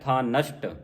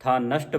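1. ਇਹ ਸ਼ ਨਾਲ ਇੱਕ ਸ਼ਬਦ ਵਜੋਂ ਉਚਾਰਿਆ ਜਾਂਦਾ ਹੈ। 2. ਇਹ ਸ਼ ਨਾਲ ਇੱਕ ਸ਼ਬਦ ਵਜੋਂ ਉਚਾਰਿਆ ਜਾਂਦਾ ਹੈ।

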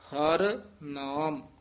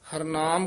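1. ਦੋਵੇਂ ਸ਼ਬਦ ਵੱਖ-ਵੱਖ ਬੋਲੇ ਜਾਂਦੇ ਹਨ। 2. ਦੋਵੇਂ ਸ਼ਬਦ ਇਕੱਠੇ ਇੱਕ ਸ਼ਬਦ ਵਾਂਗ ਬੋਲੇ ਜਾਂਦੇ ਹਨ।

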